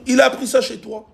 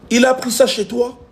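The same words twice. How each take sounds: The two takes are said the same way.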